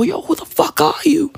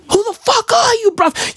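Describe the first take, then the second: First: Hushed whisper at his own reflection; whispered to the mirror. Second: Much higher, pushing the question at his reflection; higher demand to the mirror. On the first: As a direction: whisper it, half spooked by the mirror. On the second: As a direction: jump way up in pitch and demand it. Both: Retold or imitated. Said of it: "I look at myself in the mirror and I go".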